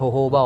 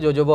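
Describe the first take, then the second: First: The word begins with an H sound. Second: The word begins with a J sound. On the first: The speaker calls it right. "असल में तो उसको pronounce करना चाहिए होहोबा" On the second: The speaker calls it wrong. "ज़्यादातर लोग इसको जोजोबा oil बोलते हैं"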